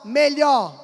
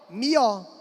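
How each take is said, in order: First: The middle 'lh' sound is kept. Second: The middle 'lh' sound is dropped. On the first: "Como é que ela vai pronunciar melhor?" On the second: "É a anulação do dígrafo L H"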